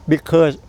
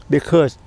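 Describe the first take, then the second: No difference in how they are said.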